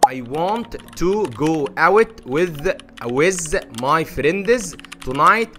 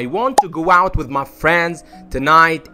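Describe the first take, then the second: First: The words are said separately, without linking. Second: The words run together with linked sounds. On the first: The speaker calls it wrong. "طبعا ده نطقك ايه الاولي" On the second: The speaker calls it right. "وابقى عملت لينكن صح"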